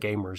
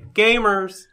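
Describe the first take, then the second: First: The word is said flatly, without extra energy. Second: The word is exclaimed with loud, excited energy. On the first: The speaker calls it wrong. "you can't say Gamers" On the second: The speaker calls it right. "There's an exclamation point there"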